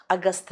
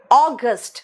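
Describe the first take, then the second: First: अगस्त as "a-gast" with soft t; lower, softer Hindi अगस्त; Hindi-style mispronunciation. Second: अगस्त as "AW-gust"; stressed open "aw" opening अगस्त; English pronunciation. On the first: (अगस्त का देसी उच्चारण, छोटा "अ") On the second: (अगस्त को अंग्रेज़ी में "ऑगस्ट") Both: Shown as a demonstration. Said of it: "अगस्त नहीं".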